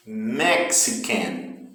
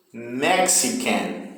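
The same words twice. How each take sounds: First: Slow Mexican, MEX hit and the rest fading; slow first-syllable stress on Mexican. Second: Slow Mexican, MEX strong and can light; slow model word, first-syllable stress. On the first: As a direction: say Mexican slowly, hitting MEX. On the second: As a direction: draw out Mexican, leaning on MEX. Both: Shown as a demonstration. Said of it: "O início é que tem mais força".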